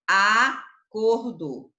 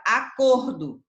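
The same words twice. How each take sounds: First: Acordo very drawn out, COR emphasized; stress on COR. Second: Said in the usual way. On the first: Shown as a demonstration. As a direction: stretch acordo loudly and slowly to show the cor. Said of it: "Quem é a sílaba que se pronuncia com maior intensidade". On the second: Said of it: "ele colocou aqui a palavra acordo".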